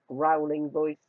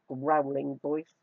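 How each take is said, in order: The two takes are said the same way.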